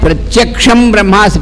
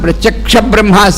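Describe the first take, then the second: First: The first word ends with an m sound. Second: The first word ends without an m sound. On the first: The speaker calls it right. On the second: The speaker calls it wrong.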